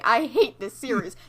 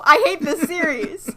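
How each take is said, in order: First: Said in the usual way. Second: Higher, louder exasperated groan. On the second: Real, not acted. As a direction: blurt it out, fed up and loud. Repeats complaint, second time louder.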